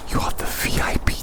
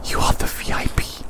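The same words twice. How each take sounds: The two takes are said the same way.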